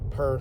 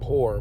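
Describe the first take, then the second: First: The vowel sounds like the one in per. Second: The vowel sounds like the one in poor. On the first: The speaker calls it right. "but per" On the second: The speaker calls it wrong. "not poor"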